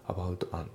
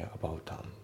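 First: "アバウトアン" as separate "abauto an"; katakana-style "アバウトアン" with TO sounded; unlinked pronunciation. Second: "アバウトアン" softly fused as "aboutan"; T flows into A in "アバウトアン"; softer model of linked "アバウトアン"; linked pronunciation. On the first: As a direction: keep the words apart in "アバウトアン". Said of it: "じゃなくて". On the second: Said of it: "リンキングで". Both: Shown as a demonstration.

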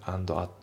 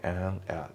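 First: AND AT as "ando atto"; katakana-style AND AT with added vowels; D fully sounded. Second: AND AT as "an-at"; dropped D. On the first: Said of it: "じゃなくて". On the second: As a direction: leave out the D in AND. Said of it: "andのDが抜けますね". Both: Shown as a demonstration.

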